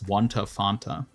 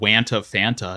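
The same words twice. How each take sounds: First: The vowel in Fanta sounds like 'fountain'. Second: The vowel in Fanta sounds like 'fan'. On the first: The speaker calls it right. "almost like a fountain" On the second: The speaker calls it wrong. "It's not"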